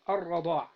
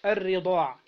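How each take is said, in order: First: الرضاع said raḍāʿ with an open a after the r; fatha on the ra. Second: الرضاع said riḍāʿ with an i after the r; kasra on the ra. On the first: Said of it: "قال: بفتح الراء". (الرضاع بفتح الراء) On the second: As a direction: give الرضاع an i sound on the r. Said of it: "وكسرها". (الرضاع بكسر الراء) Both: Shown as a demonstration.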